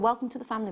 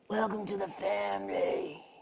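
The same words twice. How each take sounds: First: It is said in the speaker's normal accent. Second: It is said in a put-on, theatrical accent.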